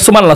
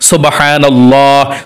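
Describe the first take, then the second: First: It is said quickly and hurriedly. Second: It is said slowly and carefully.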